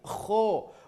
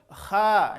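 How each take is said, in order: First: The vowel is a thick, rounded o sound. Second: The vowel is a thin, open a sound. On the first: The speaker calls it right. "Bunyi vokal huruf tebal adalah huruf O" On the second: The speaker calls it wrong. "Kalau terlalu kuat juga atau terlalu lemah menjadi kha, belum"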